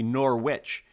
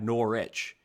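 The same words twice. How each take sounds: First: The W in the middle is pronounced. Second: The W in the middle is silent. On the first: This is the name of the Vermont school. "I think believe you said it correctly" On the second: This is the name of the English football club. "We don't say the W"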